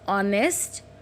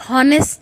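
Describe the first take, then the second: First: The word begins with a vowel sound. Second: The word begins with an h sound. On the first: The speaker calls it right. "We always use ऑनेस्ट" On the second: The speaker calls it wrong. "हॉनेस्ट नहीं बोलते हैं"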